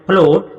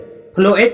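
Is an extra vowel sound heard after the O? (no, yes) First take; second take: no; yes. First: No extra vowel is sounded after the O. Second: An extra vowel is sounded after the O. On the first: The speaker calls it right. "फ्लोट पढ़ रहे हैं, मतलब ए के बारे में कुछ भी नहीं बोल रहे हैं" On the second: The speaker calls it wrong. "फ्लोएट नहीं पढ़ रहा है"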